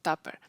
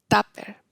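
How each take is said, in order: First: The first vowel is the English u sound. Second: The first vowel is a Spanish a. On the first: "un sonido que es único del inglés" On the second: "lo interpretan como una A"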